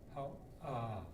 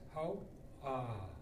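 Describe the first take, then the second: First: It has a glottal break and a rising end. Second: The same.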